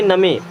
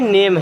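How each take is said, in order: First: Short a vowel and the final e is sounded. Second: Long ay vowel and the final e is silent. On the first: The speaker calls it wrong. "बारह खड़ी में जाएंगे तो इसे पढ़ेंगे नमे" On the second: The speaker calls it right. "लेकिन ये एक्चुअल में नेम है"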